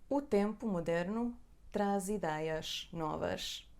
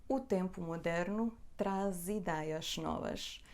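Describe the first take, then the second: Both takes have the same delivery.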